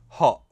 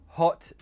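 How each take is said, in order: First: The t is replaced by a glottal stop. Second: The t is pronounced as a clear t.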